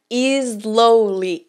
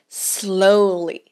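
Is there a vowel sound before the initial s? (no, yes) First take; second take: yes; no. First: A vowel sound is added before the s. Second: The word starts directly with the s. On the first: The speaker calls it wrong. "não é slowly" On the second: The speaker calls it right. "é slowly"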